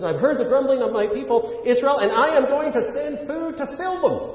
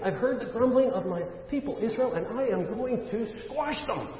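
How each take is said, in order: First: High-pitched, full-voiced divine promise; emphatic proclamation. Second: High, softer pretend divine threat; mock threat. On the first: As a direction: proclaim the real verdict, rising higher to the end. Gives the Bible's real answer. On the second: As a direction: play at a punishing verdict, pitched high but held back in volume. Imagines God's answer as a sinner.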